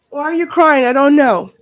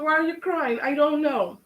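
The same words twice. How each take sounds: First: Louder, pressing the question hard; emphatic loud repeat. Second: Said in the usual way. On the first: Retold or imitated. Reacting to the clip, pleading loudly with mother and daughter. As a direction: push the words out like you're pleading for an answer.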